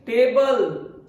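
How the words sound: The t is said like a Hindi t. The speaker calls it wrong. "So our pronunciation is table, ... but these are wrong pronunciation"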